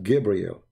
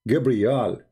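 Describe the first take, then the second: First: The last syllable is pronounced 'el'. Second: The last syllable is pronounced 'al'. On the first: This is the later changed form. The speaker calls it wrong. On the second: This is the ancient form. The speaker calls it right.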